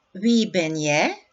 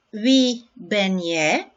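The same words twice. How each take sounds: First: "Wie ben jij?" at natural speed, still rising at the end; everyday "Wie ben jij?", quick and rising; normal-pace repeat. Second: "Wie ben jij?" said slowly, stress on "wie", rising at the end; slow teacher model of "Wie ben jij?"; slow model question. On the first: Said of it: "repeat at normal pace". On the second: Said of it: "teacher models Dutch question". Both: Shown as a demonstration.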